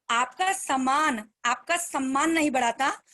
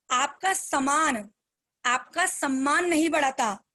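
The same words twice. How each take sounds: First: Slow and weighty, "आपका" leaned on; slow key line. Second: Very slow, a pause after "सामान"; spoken slowly. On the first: Speaker repeating her motto to the team, slowly. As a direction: let the saying sink in, word by word. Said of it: "ध्यान से सुनना". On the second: Speaker slowing down so her team follows the line. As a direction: break it up slowly for the listeners. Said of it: "थोड़ा सा धीरे धीरे बोलती हूँ". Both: Shown as a demonstration.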